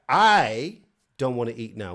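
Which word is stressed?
I. The stress falls on the word I. It is this person, not others, who won't eat. "which is like me"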